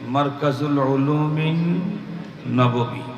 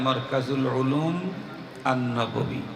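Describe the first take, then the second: First: The words run together, ending 'ulumin nabawi'. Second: The words are separate, ending 'ulum an-nabawi'. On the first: "মিলায়া পড়লে কি হবে?" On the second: "আর যদি না মিলায়া পড়া হয়"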